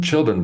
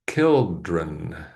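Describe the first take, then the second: First: It begins with a soft ch sound. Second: It begins with a hard k sound.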